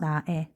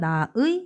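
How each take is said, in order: First: The second syllable has the vowel e. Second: The second syllable has the vowel ui. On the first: "애도 된대요. 애로 발음해도 됩니다" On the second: "조사의 의는 의도 되고"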